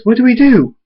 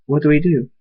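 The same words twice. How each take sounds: First: High, loud alarmed question; panicked. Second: Said in the usual way. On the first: A narrator's reading. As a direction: cry it out in panic. Panic as the enemies arrive.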